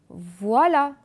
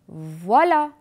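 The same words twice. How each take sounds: The two takes are said the same way.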